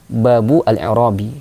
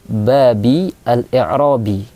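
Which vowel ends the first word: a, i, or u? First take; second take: u; i. First: The first word ends with a u vowel. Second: The first word ends with an i vowel. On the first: The phrase is a subject or predicate with a dropped partner. "kita berharokat dhamma" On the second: The phrase follows a dropped preposition. "Cara baca yang ketiga berharokat kasrah"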